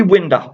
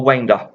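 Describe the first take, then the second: First: WINDER with a short i, as in window; first pronunciation. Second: WINDER with a long i, as in winding; alternative pronunciation. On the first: Unsure of the lad's name, WINDER tried first with short i. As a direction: say WINDER to rhyme with cinder. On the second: Unsure of the lad's name, WINDER offered as alternative with long i. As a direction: say WINDER to rhyme with finder. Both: Shown as a demonstration. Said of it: "not sure how you pronounce".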